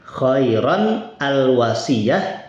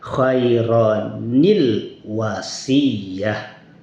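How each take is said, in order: First: The two words are said without a linking i. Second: The words are joined with a linking i sound.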